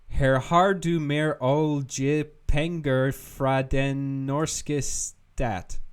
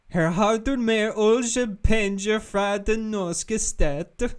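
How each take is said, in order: First: It is read in a plain, ordinary accent. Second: It is read in a goofy Swedish-like accent. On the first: "I'm gonna butcher this" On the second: "I'm gonna say it in a really goofy accent this time. ... like a goofy kind of Swedish"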